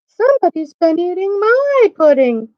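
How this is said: The voice sounds middle-sized. "in her middle-sized voice"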